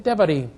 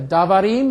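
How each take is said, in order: First: "devarim" with a short, reduced "deh" first syllable; reduced first vowel. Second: "davarim" with a full "dah" first syllable; unreduced first vowel. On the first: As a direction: say "devarim" as deh-vah-REEM. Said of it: "original short vowel basically got the life sucked". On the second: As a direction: say "davarim" as dah-vah-REEM. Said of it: "something like has happened in, instead of". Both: Shown as a demonstration.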